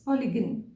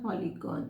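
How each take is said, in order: First: The last syllable has a weak, reduced vowel. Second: The last syllable has a full 'gone' vowel. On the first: The speaker calls it right. "the vowel o is not pronounced" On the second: The speaker calls it wrong. "it's not polygon"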